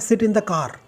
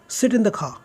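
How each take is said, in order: First: Car has a plain k and a clear r. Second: Car has a breathy k and no r. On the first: "सो हमारा क्या है" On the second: "वहाँ पे क को ख करते हैं। ... र भी ठीक तरह से नहीं आता है उनका"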